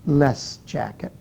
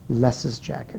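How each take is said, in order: First: No extra syllable is said after 'Les'. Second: An extra 'iz' syllable follows 'Les'. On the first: The speaker calls it wrong. "or do we say less jacket? No" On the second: The speaker calls it right. "we actually hear Les's jacket"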